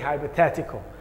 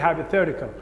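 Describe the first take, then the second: First: It is said with a British accent. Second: It is said with an American accent. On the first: "in British accent they say" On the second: "In American accent they say"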